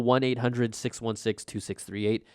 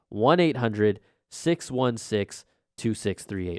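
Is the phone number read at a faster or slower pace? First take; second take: faster; slower. First: The number is read at a normal, quicker pace. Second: The number is read at a slower pace.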